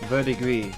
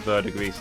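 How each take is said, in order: First: The final s is left silent at the end. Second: The final s is sounded at the end. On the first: The speaker calls it right. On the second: The speaker calls it wrong.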